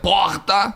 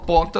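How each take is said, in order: First: The word is said angrily with a heavy R. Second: The word is said calmly with a light R. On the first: The speaker is upset about something. "se eu tiver puto com alguma coisa" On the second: The speaker is relaxed in conversation. "Aqui com você eu falo porta"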